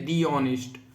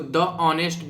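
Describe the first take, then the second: First: The article is said with a long 'thee' vowel. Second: The article is said with a short 'thuh' vowel. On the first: The speaker calls it right. "इसको दी honest बोला जाता है" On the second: The speaker calls it wrong. "द नहीं बोला जाता"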